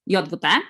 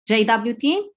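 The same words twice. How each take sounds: First: The letters are named the Polish way. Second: The letters are named the English way. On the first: "As a native Polish speaker, I pronounce it" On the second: "In English, I usually hear the pronunciation as"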